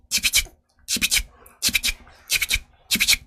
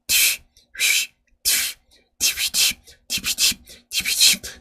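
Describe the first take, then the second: First: Rapid voiceless beatbox scratch in tight bursts; fast bursts of whistled air; quick whistle scratch. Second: Voiceless beatbox whistle scratch, each puff spaced out; breath-only scratch syllables; slow whistle scratch. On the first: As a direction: blow "티, 휘, 티" in one instant. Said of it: "이거를 순간적으로 빠르게 해야 돼요". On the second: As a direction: blow "티, 휘, 티" as pure air, slowly. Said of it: "바람을 뱉어야 돼요". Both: Shown as a demonstration.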